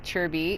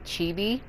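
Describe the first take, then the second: First: The vowel is said with an R sound. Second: The vowel is said without an R sound. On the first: The speaker calls it wrong. "why does the I always have to be an R sound" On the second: The speaker calls it right. "it's actually Chibi"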